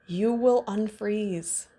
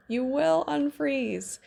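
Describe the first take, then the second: First: Said in the usual way. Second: "You will unfreeze" said higher, leaning on "will"; emphatic repeat. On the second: Shown as a demonstration. Coach reassuring the listener, higher and pressing "will".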